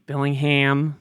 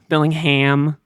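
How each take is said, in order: First: The name is said with an American pronunciation. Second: The name is said with an American pronunciation.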